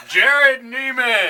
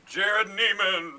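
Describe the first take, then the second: First: High, loud, stretched announcer call; fighting game announcer. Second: Booming, drawn-out announcer call; fighting game announcer. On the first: Shown as a demonstration. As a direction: belt the name out slowly. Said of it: "How was that in an announcer voice?". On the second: Acted. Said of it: "I like the Munster truck voice".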